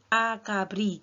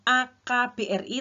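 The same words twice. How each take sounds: First: It is said as one single word. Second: Each letter is said separately. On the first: The speaker calls it right. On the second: The speaker calls it wrong. "Jadi bukan"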